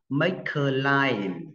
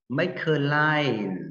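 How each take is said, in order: First: The words are linked together smoothly. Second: The same.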